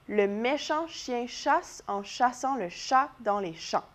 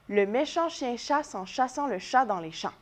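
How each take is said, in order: First: The sentence is said at a slow pace. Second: The sentence is said at the fastest pace. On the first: "On l'essaye ensemble cette fois-ci?" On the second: "un petit peu plus vite"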